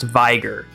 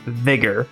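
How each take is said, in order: First: The word is said as Viger. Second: The word is said as Vigor. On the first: The speaker calls it wrong. "I genuinely thought that this word was pronounced Viger" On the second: The speaker calls it right. "it's actually pronounced Vigor"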